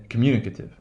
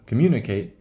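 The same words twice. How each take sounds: First: Communicative ending in weak "kuh-tiv"; schwa in communicative. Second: Communicate ending on a full "kate"; long A in communicate. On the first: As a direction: model communicative with "ate" reduced to schwa. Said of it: "that eight becomes, uh". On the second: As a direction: model communicate with unreduced final "ate". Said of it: "pronunciation of the kate". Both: Shown as a demonstration.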